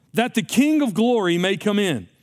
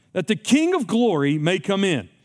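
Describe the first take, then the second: The two takes are said the same way.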